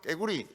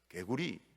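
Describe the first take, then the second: First: It has a tense first consonant, Gyeongsang style. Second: It has a soft first consonant, Seoul style. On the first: The speaker comes from Gyeongsang province. "경상도 사람들은 깨구리 이렇게 합니다" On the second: The speaker comes from Seoul. "서울 사람들은... 개구리 이렇게 부드럽게 발음합니다"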